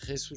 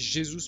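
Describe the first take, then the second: First: The name starts with a throaty 'h' sound. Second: The name starts with a soft 'zh' sound. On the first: The speaker calls it wrong. "moi j'ai l'habitude de dire Jesus, je suis dé désolé" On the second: The speaker calls it right. "je sais qu'on dit Jesus"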